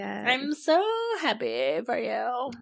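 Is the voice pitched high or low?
low. It is said in her normal, lower voice.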